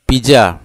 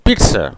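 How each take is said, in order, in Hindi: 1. बीच की व्यंजन ध्वनि 'j' जैसी है। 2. बीच की व्यंजन ध्वनि 'ts' जैसी है। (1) "इसको इंडिया में बोलते हैं पिज्जा" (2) "उसका सुधार करना चाहिए और हम बोल बोलना चाहिए पिट्स"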